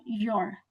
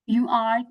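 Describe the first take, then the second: First: "you're" run into one syllable; contracted form. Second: Said in the usual way. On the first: Shown as a demonstration. Teacher showing learners the contraction, contracted "you're". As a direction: say "you're" as one short word. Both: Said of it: "you can say that you're".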